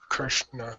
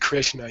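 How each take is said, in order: First: The R sound is said as 'ir'. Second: The R sound is said as 'ri'. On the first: The speaker calls it right. "You say Krishna" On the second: The speaker calls it wrong. "You don't say Krishna"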